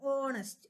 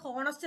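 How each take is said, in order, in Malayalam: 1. ഈ വാക്ക് സ്വരാക്ഷര ശബ്ദത്തിലാണ് തുടങ്ങുന്നത്. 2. ഈ വാക്ക് h ശബ്ദത്തിലാണ് തുടങ്ങുന്നത്. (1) "എച്ച് സൈലന്റ് ആണ്" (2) "ഇത് നമ്മൾ പ്രൊനൗൺസ് ചെയ്യുന്നത് ഹോണസ്റ്റ് എന്നാവുമ്പോഴാണ് അത് എ ആവുന്നത്"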